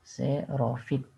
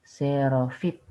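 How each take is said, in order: First: The word has an f sound before -it. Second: The word has an f sound before -it.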